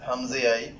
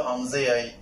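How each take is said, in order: No difference in how they are said.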